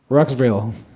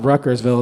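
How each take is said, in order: First: The name is said with a syllable dropped. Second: The name is said with all its syllables. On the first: This is how locals say it. "like the locals is, they take like a syllable out" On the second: This is not how locals say it. "It's not Ruckersville"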